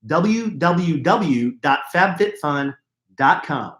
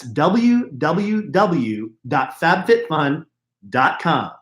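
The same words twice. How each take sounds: First: W w w dot fab fit fun said slowly, word by word; slow spelled-out URL. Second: W w w dot fab fit fun said even slower, each word separate; slower repeat of URL. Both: Shown as a demonstration.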